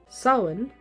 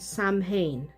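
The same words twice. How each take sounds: First: The name is said in a reduced form. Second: The name is said literally, sound by sound. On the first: The speaker calls it right. "both pronunciations are correct depending on the dialect" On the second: The speaker calls it wrong. "The pronunciation that is not correct is Samhain. It is not pronounced the way it is spelled"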